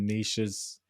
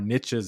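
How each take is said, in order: First: It is said in a non-American accent. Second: It is said in an American accent.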